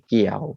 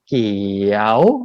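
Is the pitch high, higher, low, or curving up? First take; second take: low; curving up. First: The pitch is low. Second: The pitch dips and curves upward. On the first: "ไม่เอกเกี่ยวเสียงต่ำลง" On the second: "ครูนิวทำลูกศรโค้งเนี่ยเพราะว่าเสียงมันเป็นเกี่ยวแบบนี้"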